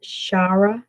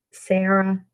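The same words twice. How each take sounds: First: Shara with SH at the start; Shara, opening on SH rather than S; pronounced "Shara". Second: Sarah with a plain S at the start; Sarah, opening on a hissed S, not SH; pronounced "Sarah". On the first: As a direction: say Shara as SHAH-ruh, questioning. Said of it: "or is it Shara?". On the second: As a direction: say Sarah as SAIR-uh, S sound first. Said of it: "am I saying that right?". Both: Shown as a demonstration.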